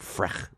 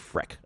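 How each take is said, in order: First: The name ends with a soft 'ch' sound. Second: The name ends with a hard 'k' sound. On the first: The speaker calls it wrong. "I like to say Frech" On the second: The speaker calls it right. "it's really Freck"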